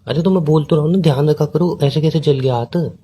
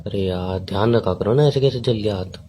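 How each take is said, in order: First: Higher, exasperated concern; defensive repeat. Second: Mildly tender. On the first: Boyfriend accused of not caring, defensively repeating himself. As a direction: insist that you already showed concern. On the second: Boyfriend hearing of a burnt hand, mildly tender. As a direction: gently tell them to take care. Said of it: "बोला तो मैंने अभी इतने प्यार से". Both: Real, not acted.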